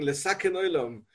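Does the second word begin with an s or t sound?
s. The second word begins with an s sound. It sounds like endangering the world.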